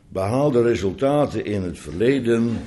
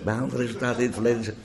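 First: It is said at a normal pace and volume. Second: It is said quickly and softly, rattled off.

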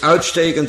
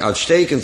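First: The stress is on the first syllable. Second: The stress is on the second syllable. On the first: Something sticks out. "steekt die eruit" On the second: Something is very good. "dan is die erg goed"

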